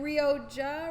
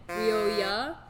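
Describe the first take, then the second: First: The middle consonant is a J sound. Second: The middle consonant is a Y sound. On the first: "Are you gonna pronounce the J or not?" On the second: "so I'm assuming I'm not pronouncing the J"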